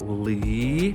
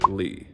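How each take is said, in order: First: The pitch rises smoothly. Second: The pitch stays very low and short. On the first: "keep it smooth and rising" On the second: "very short, super bass"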